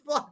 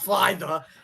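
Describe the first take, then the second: First: The name ends on the sound 'fly'. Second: The name ends with an extra 'the' sound. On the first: The speaker calls it right. "It's just fly" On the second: The speaker calls it wrong. "not fly the"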